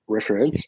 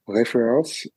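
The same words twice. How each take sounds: First: "reference" said the English way, REF-rence; "reference" corrected toward English, stress up front; English pronunciation. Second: "Reference" said the French way, ray-fay-RAHNS; "Reference" as a French word, stress on the end; French pronunciation. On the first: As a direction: give "reference" an English R, two syllables. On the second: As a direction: give "Reference" French Rs and a nasal last vowel. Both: Real, not acted. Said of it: "Sorry, my French accent".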